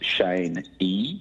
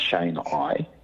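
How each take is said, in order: First: The name ends with an "ee" sound. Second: The name ends with an "eye" sound. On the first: The speaker calls it right. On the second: The speaker calls it wrong. "not Shane I"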